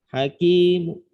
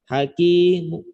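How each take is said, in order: The two takes are said the same way.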